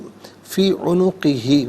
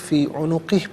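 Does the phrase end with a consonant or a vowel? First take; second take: vowel; consonant. First: The phrase ends with a final vowel. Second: The final vowel is dropped at the end. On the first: The reading continues without stopping. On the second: The reader stops here.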